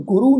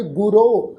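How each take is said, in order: First: ਗੁਰੂ said "gu-ru", ending in long u; wrong u ending. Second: ਗੁਰੋ said "gu-ro", ending in long o; correct o ending. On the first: Teacher shows what to avoid, ਗੁਰੂ with final u. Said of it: "ਨਹੀਂ ਉਚਾਰਨ ਕਰਨਾ". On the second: Teacher shows the right reading, ਗੁਰੋ with final o. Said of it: "ਇਸ ਸ਼ਬਦ ਦਾ ਉਚਾਰਨ ਕਰਾਂਗੇ". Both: Shown as a demonstration.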